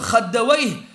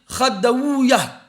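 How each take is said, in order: First: The name ends with a 'wayh' sound. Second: The name ends with an 'uya' sound. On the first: This is how the grammarians pronounce it. "chez les Nahwiyin, ils disent c'est Wayh" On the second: This is how the hadith scholars pronounce it. "Chez les Muhaddithin, ils disent c'est Ouwa"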